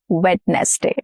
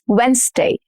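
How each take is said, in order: First: The d is pronounced, with more syllables. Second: The d is silent, with fewer syllables. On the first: The speaker calls it wrong. "and not Wednesday" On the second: The speaker calls it right. "We are shortening the number of syllables here"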